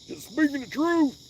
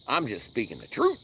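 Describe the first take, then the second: First: Mock voice. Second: Said in the usual way. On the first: Repeat in higher mock voice.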